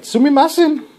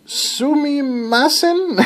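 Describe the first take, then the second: First: Very high "Sumimasen?", quicker, with a falling end; quick high squeaky Sumimasen?; mock Japanese apology. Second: Very high, very slow "Sumimasen?" with a falling end; Sumimasen? drawn out, high and unsure; mock Japanese apology. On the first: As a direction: chirp "Sumimasen?" high, brisk. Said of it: "he keeps saying that". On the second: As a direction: stretch "Sumimasen?" out, high and hesitant. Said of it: "He said".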